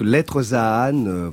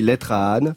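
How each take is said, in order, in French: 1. Les mots sont prononcés avec une liaison en z. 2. Les mots sont prononcés sans liaison en z.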